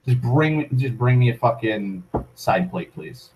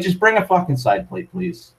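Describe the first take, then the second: First: Flat repeat. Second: Higher, sharp demand for a side plate; curt demand. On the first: Repeating the demand to the waitress, flat and trailing off. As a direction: let it sink, deadpan and fading. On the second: Telling the waitress to just bring a side plate, curtly. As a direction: snap the order at the waitress. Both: Retold or imitated.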